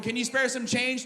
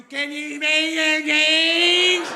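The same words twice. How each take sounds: First: Said in the usual way. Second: High, loud, stretched-out garbled whine; bad-neighborhood drug voice. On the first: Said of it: "street people go from". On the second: Street person begging in a bad neighborhood, mangled drugged wail. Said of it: "when you hear that voice".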